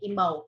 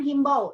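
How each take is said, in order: First: The word starts directly with a vowel sound. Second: The word starts with an h sound. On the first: The speaker calls it right. "nah ini imbau" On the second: The speaker calls it wrong. "bukan himbau, ingat"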